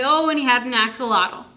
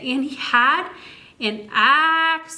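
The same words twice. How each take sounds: First: Said in the usual way. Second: "axolotl" drawn out slowly, a bit higher; stretched out slowly. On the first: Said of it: "Or I could say". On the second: Shown as a demonstration. Reading to a child, stretching "axolotl" out slowly. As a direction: stretch every sound of "axolotl". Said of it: "stretch words out very slowly".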